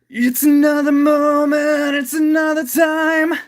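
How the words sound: The voice is smooth and free-flowing.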